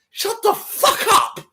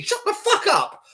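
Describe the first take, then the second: First: High, slow shouted insult; mock gym bro shout. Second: High, slow shouted repeat; mock gym bro shout. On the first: Mimicking a gym bro yelling at a weaker lifter, loud shout. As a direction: bellow it like a hyped gym bro. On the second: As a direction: yell it again like a hyped gym bro. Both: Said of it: "It's like".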